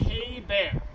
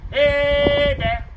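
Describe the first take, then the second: First: Said in the usual way. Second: Loud, higher, long-held HEY; loudest, proudest yell. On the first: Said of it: "every time I tell you folks to say". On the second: Shown as a demonstration. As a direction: belt it out proudly to warn the bears. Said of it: "your loudest and proudest".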